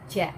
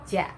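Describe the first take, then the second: The two takes are said the same way.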